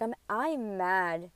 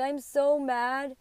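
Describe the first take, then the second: First: Slow retold mad. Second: Drawn out and pitched up; slow, higher mad. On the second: Retold or imitated. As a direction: friend hears her say she is so mad, drawn out higher. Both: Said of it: "and I'm mad".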